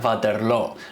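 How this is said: The name is pronounced with Dutch sounds. "En holandés, que sería como habría que pronunciarlo, se diría"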